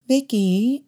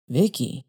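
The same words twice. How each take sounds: First: Mother's voice, pitched up, rising on the name; mother calling Vicky. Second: Lightly voiced attendant saying the name; attendant repeating the name. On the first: Acted. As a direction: gently nudge her daughter by name. Mother prompts shy daughter. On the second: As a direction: savour the girl's name slowly.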